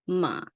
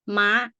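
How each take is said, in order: First: The pitch stays low and flat. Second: The pitch is high and goes up. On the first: "low tone ... sound like you have depression" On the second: "high tone it go like you know you see it goes straight up high"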